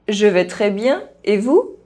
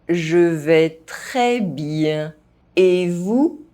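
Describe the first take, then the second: First: The phrase is spoken fast. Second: The phrase is spoken at normal pace. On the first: This is how native speakers say it. "fast, as a native speaker would do" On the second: This is the recommended way for learners to say it. "at a normal pace"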